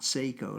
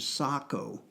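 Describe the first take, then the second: First: It is said like the watch brand name. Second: It is said with the Finnish pronunciation. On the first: The speaker calls it wrong. "not Seiko, like the watch" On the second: The speaker calls it right. "the correct Finnish pronunciation is Sako"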